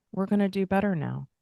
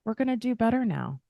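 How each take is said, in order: First: Said in the usual way. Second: "We're gonna do better now" lifted higher and brightened by a smile. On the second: Shown as a demonstration. To yourself in the mirror, say "We're gonna do better now" smiling. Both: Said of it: "And you can smile".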